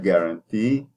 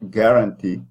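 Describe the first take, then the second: First: The stress is on the last syllable. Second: The stress is on the first syllable. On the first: The speaker calls it right. "because the T at the end is stressed" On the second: The speaker calls it wrong. "put the stress at the beginning of the word"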